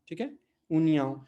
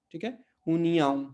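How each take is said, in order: Both takes have the same delivery.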